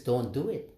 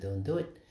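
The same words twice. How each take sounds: First: A firmer, slightly raised retold insistence; insisting. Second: Softly retold calm warning; calm quiet no. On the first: Swami insists a second time that he not give, mildly firm. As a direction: press the no home, mildly insistent. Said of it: "he insists". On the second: Swami calmly stops the speaker from giving money, soft and calm. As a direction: say it gently, a quiet restraining no. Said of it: "held my hand very calmly and said".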